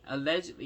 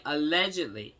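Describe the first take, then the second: First: Said in the usual way. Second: Allegedly punched out louder; emphatic allegedly. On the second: Real, not acted. Commentator hedging a rumor, loud emphatic allegedly. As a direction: lean hard on allegedly, a pointed hedge. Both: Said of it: "I'm just saying".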